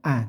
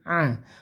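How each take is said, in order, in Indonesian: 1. Vokal ini diawali dengan hamzah biasa. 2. Vokal ini diawali dengan bunyi tenggorokan yang ditekan. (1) "Jangan sampai tertukar dengan hamzah. A tidak" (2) "Ain ditekan, bunyikan a"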